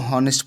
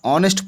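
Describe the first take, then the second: First: The word begins with an h sound. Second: The word begins with a vowel sound. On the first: The speaker calls it wrong. "कई लोग इसको हॉनेस्ट पढ़ते हैं, गलत है" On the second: The speaker calls it right. "ऑनेस्ट बोलते हैं इसको"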